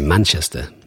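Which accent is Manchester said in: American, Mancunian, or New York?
Mancunian. It has a Manchester accent with no final R. "But I don't say that. I say Manchester"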